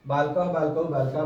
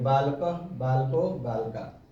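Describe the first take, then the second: First: The forms are recited fast. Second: The forms are recited slowly.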